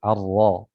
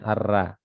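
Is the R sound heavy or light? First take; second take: heavy; light. First: The R sound is heavy and thick. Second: The R sound is light and thin. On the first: The speaker calls it right. "ra-nya juga harus ditebalkan" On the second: The speaker calls it wrong.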